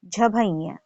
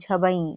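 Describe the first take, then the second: First: The word ends in an aspirated 'bhaiya'. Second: The word ends in a short unaspirated 'bai'. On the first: The speaker calls it right. "ये झभैया है" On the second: The speaker calls it wrong. "बहुत सारे बच्चों को मैंने सुना है बोलते हैं झबई ... ये झबई नहीं है"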